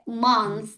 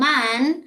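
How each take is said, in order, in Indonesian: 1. Bunyinya berakhir dengan bunyi th. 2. Bunyinya berakhir dengan bunyi n biasa. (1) "cara pengucapannya tuh kayak month" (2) "If you say"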